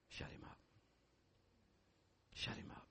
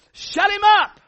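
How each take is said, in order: First: Urgent whisper, soft and intense; whispered command. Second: High, loud shout of Shut him up; shouted command. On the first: Pastor urging congregation quietly, whispered command. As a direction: breathe the command, hushed. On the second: Pastor commanding congregation to silence the giant, loud shout. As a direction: hurl the command like a war cry. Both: Acted.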